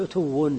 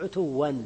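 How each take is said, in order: First: "عتو" closing with a nominative u sound; damma ending. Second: "عتوا" closing with an open a and n; accusative ending. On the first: Teacher showing case endings to students, "عتو" ending in damma. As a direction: end "عتو" on -un, ʕutuwwun. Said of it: "بالضم تقول عتو". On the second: Teacher showing case endings to students, "عتوا" ending in -an. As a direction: end "عتوا" on -an, ʕutuwwan. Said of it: "وبالنصب تقول عتوا". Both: Shown as a demonstration.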